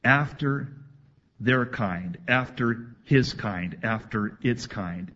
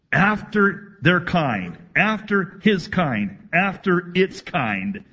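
First: Said in the usual way. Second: Slow, higher and louder, each phrase hammered; emphatic. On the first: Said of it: "The language here in the Hebrew is emphatic". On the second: Shown as a demonstration. Pastor stressing Genesis wording to congregation, emphatic slow delivery. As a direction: preach "after their kind, after his kind, after its kind" slowly, every kind stressed. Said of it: "God is declaring here very emphatically".

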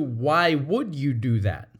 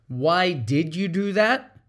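First: "would" leaned on, accusatory; accusing question. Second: Slow, curious why; genuinely want to know; slow and gentle, sincerely asking; sincere question. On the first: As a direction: stress on would, blaming. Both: Shown as a demonstration. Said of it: "As opposed to".

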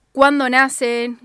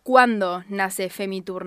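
First: Cuándo punched louder and slower; stress on cuándo. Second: Said in the usual way. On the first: Real, not acted. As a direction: lean hard on cuándo, drawn out. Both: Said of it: "pero digo".

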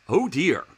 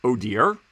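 First: Mock prim dismay, falling at the end; a light imitation of a disapproving oh dear. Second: A mild, rising what-do-you-mean; incredulous echo. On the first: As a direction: retell her tut-tutting reply as a mild mock. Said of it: "Then she responded". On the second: Real, not acted. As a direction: repeat the phrase back in disbelief, rising at the end. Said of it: "I'm like".

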